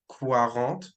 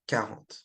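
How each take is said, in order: First: The word starts with a kw sound. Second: The word starts with a plain k sound. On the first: The speaker calls it wrong. "make sure you don't pronounce the quarante like quarante, right? With the Q U" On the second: The speaker calls it right. "It's just quarante"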